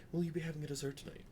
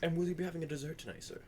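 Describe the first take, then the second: First: Said in the usual way. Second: Waiter's put-on French accent, quick. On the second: Waiter serving a guest dessert, in a French accent. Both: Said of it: "I noticeably drop my French accent".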